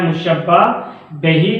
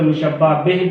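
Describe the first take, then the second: First: मुशब्बह बही said mushabba be-hee, ending in "hee"; full-vowel reading. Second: मुशब्बह बिह said mushabba bih, short last syllable; common short reading. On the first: Teacher defining the term, बही as be-hee. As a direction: give बही two syllables, be-hee. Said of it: "इसको अक्सर मुशब्बह बिह भी पढ़ते हैं". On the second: Teacher giving the usual variant, बिह as one short bih. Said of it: "अक्सर मुशब्बह बिह भी पढ़ते हैं". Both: Shown as a demonstration.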